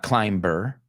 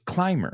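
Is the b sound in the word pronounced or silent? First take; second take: pronounced; silent. First: The b sound is pronounced after the m. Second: The b sound is silent after the m. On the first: The speaker calls it wrong. "It's not climber" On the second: The speaker calls it right. "It's climber"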